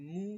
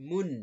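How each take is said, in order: First: মু with no n at the end; open মু. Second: মুন closed firmly on a held n; n-ending মুন. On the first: Teacher showing one pesh to pupils, open মু. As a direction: leave মু open on the vowel. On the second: Teacher showing two pesh to pupils, মুন ending in n. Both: Shown as a demonstration. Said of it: "উচ্চারণ হবে".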